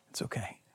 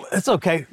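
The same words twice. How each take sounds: First: A soft whisper; whispered comfort. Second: Said in the usual way. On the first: Acted. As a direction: breathe it out as pure reassurance. God's voice comforting the weary.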